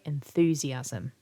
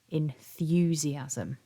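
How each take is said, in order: First: The 'th' goes straight into 'oo' without 'y'. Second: A 'y' glide comes between 'th' and 'oo'. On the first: "many people will pronounce this word without the y" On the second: "has the y"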